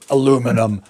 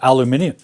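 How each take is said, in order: First: It is said with four syllables, ending in -num. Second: It is said with five syllables, ending in -nium. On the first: This is the North American way of saying it. "you Yanks mispronounce it aluminum" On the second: This is the British and Australian way of saying it. "Brits and Aussies are crazy by calling it aluminium"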